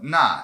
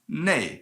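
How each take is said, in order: First: The word ends in an open 'ah' vowel. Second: The word ends in an 'ay' glide. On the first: This is the formal dictionary form. "they're the most formal" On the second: This is the common alternate form. "pronounced ne, as in N E I"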